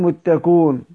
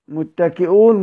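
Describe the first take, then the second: First: The glottal stop is dropped from the middle. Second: The glottal stop is pronounced in the middle.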